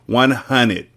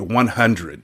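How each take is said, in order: First: Hundred is said as hunnid, without the R. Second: Hundred is said in full, with the R. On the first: The speaker calls it right. "H U N N I D. No R, no E, no D" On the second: The speaker calls it wrong. "y'all don't say one hundred right"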